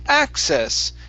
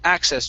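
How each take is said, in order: First: The pitch goes up a lot on the word. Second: The pitch goes up only slightly on the word. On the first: The speaker calls it wrong. "don't go up as much. we don't want to say access" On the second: The speaker calls it right. "but it's access, just very little"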